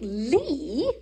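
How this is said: It is said grandly with a flick of the tongue. "Rosemary would be like, Lee? And there's something about that flick of the tongue"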